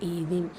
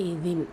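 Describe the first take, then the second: Both takes have the same delivery.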